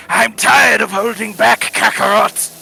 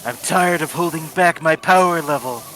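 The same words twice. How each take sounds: First: High, loud straining Vegeta scream. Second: Lightly voiced edgy anime rival; Shadow voice. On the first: Acted. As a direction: belt it like an enraged anime prince. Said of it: "My Vegeta voice is more like". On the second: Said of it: "That was my Shadow voice".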